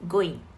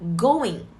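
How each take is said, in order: First: The final g sound is pronounced. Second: The final g sound is dropped. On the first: "instead of going" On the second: "dropping the final G"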